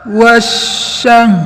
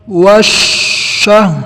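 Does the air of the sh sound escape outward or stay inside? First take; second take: inside; outward. First: The sh air spreads inside the mouth. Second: The sh air escapes out past the lips. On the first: The speaker calls it right. "udaranya menyebar di dalam mulut" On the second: The speaker calls it wrong. "Tidak boleh kita baca seperti ini"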